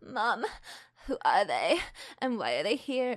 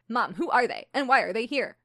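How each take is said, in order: First: It is said in an indie singer voice. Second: It is said in her plain reading voice.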